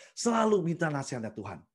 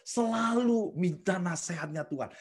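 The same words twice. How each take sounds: First: Said in the usual way. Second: Slow emphasis. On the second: Shown as a demonstration.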